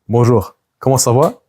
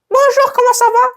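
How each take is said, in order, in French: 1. La voix est plus grave et on parle plus lentement. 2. La voix est plus aiguë et on parle plus vite. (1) "d'avoir une voix plus grave, de parler plus lentement" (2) "tu dis bonjour avec cette voix-là"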